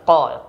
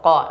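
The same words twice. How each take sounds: First: The syllable ends with an echoing bounce. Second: The syllable ends cleanly without a bounce. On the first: The speaker calls it wrong. "jangan ko" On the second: The speaker calls it right. "Tidak boleh ada pantulan ya"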